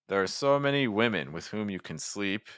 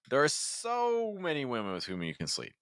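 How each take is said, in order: First: The stress falls on women and sleep. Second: The stress falls on so. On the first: "the words that I hear you stressing: women in sleep" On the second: "you could have just stressed so"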